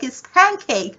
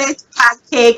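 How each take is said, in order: First: It is said with an American accent. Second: It is said with a Nigerian accent.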